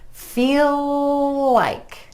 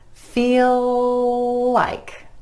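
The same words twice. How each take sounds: First: One continuous L joins the two words. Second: One continuous L joins the two words.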